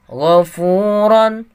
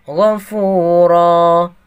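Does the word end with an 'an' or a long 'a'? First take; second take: 'an'; long 'a'. First: The word ends with a nasal 'an' sound. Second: The word ends with a long 'a' vowel.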